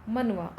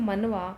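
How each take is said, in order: Both takes have the same delivery.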